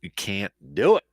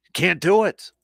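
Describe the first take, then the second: First: Said in the usual way. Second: Higher and louder, driving it home; exasperated emphatic insistence; emphatic repeat. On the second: Real, not acted. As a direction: hit it hard the second time. Repeats the line, second time louder.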